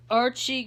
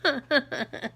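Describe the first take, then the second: First: Said in the usual way. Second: Put-on higher, laughing sitcom accent; Edith Bunker. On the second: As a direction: draw the name out in a mock accent. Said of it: "I was always doing that accent".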